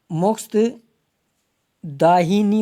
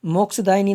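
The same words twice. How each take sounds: First: मोक्षदाहिनी very slow, split after मोक्ष, long दा; correct form. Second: मोक्षदायिनी run together at normal pace; wrong form. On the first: Teacher giving the correct form, मोक्षदाहिनी slowly drawn out. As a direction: stretch मोक्षदाहिनी in two parts. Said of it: "होता है". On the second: Teacher rejecting the wrong form, मोक्षदायिनी said in one go. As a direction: say मोक्षदायिनी quickly joined, "daini". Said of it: "नहीं होता है". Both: Shown as a demonstration.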